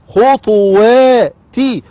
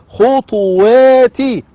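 The two takes are said the same way.

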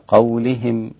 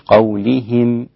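First: The i-vowel is kept short and clean. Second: The i-vowel is stretched toward a y-sound. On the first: The speaker calls it right. "مثل قولهم" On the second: The speaker calls it wrong. "مش قولهم"

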